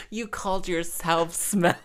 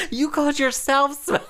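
First: Said in the usual way. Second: High, laughing take on mum's retort; mocking mother. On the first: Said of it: "repeats the quote". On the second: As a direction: squeak mum's comeback, amused. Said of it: "she was like".

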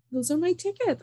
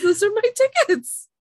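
First: Higher, pressing claim; insistent. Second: Much higher and louder, final demand; loud insistence. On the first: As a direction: stand your ground, pitch up. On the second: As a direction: hammer it home, almost shouting. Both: Retold or imitated. Insisting to ticket agent.

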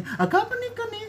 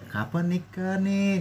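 First: Very high-pitched needling question; squeaky-high mocking prying; mocking intonation. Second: Slow, softly raised question; pleasant asking. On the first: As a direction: imitate a nosy aunt, pitched way up. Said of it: "itu dari intonasinya udah". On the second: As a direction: ask it gently, drawn out. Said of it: "Masih kayak gitu masih enak ya". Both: Shown as a demonstration.

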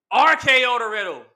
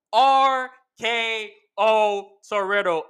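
First: Loud, high call of "R K O to Riddle."; excited call. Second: Slow, stretched-out "R K O to Riddle." like a ring announcer; drawn-out announcer call. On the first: Fan recapping the match, loud excited call. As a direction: hype up the "R K O to Riddle." like a commentator. Calling the finishing move. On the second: Fan repeating the finisher call, slow announcer style. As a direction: stretch every word of "R K O to Riddle." for drama. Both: Real, not acted.

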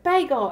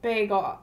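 First: Higher, louder Southern "bagel"; Southern accent. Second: Said in the usual way. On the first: Retold or imitated. The Southern woman says her word first, imitated Southern accent. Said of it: "so she would be like". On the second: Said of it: "and he'd be like".

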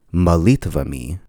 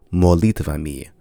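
First: Molitvami with the unstressed O reduced to uh, "məlitvəmi"; Russian reduced molitvami. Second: Molitvami with every vowel full, a clear O in "mo"; southern unreduced molitvami. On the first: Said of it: "the word sounds like molitvami". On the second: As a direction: say molitvami keeping the O round and unreduced. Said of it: "so it will be pronounced". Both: Shown as a demonstration.

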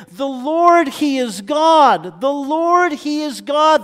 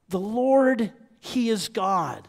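First: Raised, forceful cry of the crowd; proclaiming. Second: Said in the usual way. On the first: Retold or imitated. Preacher voicing the awed people on their knees, loud proclamation. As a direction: proclaim it high and loud, line by line.

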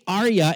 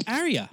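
First: "Arya" with broad British AR; British-style Arya. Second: "Arya" opening like AIR; western-accented AIR-ee-a for "Arya"; own-accent Arya. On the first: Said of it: "look like a douchebag trying to be British". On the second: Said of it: "when in my accent". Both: Shown as a demonstration.

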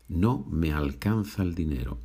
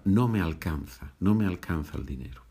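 First: Said in the usual way. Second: Quick street phrasing. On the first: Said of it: "muchas veces en la calle vas a escuchar". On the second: Shown as a demonstration. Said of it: "en la calle vas a escuchar".

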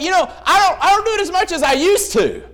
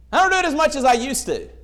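First: Excuse-making sinner. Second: Said in the usual way. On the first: Retold or imitated. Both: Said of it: "We're like".

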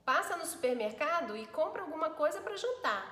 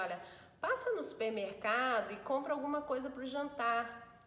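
First: Higher, louder command; bossy order. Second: Gentle, worried request; tender, concerned tone; caring concern. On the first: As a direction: bark it as an order to the husband. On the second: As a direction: ask it out of care for him. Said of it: "É a entonação de preocupação, de zelo". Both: Shown as a demonstration.

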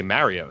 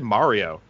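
First: "Mario" with the flat A of marry; Southern New York pronunciation. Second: "Mario" with an open AH in the first syllable; other person's pronunciation. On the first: Shown as a demonstration. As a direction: say "Mario" as MARE-ee-oh. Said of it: "where we say Mario". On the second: Retold or imitated. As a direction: say "Mario" as MAH-ree-oh. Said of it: "it's that you said Mario".

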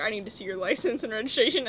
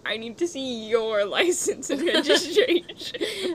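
First: Brisk police officer demand; stern traffic cop asking for papers. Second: Slower, higher, laughing through the line; mock cop line cracking up; laughing reversal. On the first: Retold or imitated. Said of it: "a cop pulls someone over and it's like". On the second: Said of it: "they pull out an Uno reverse card and they're like".

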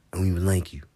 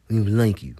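First: Whispered. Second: Louder, said out. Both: Acted. Repeated line, whispered then loud.

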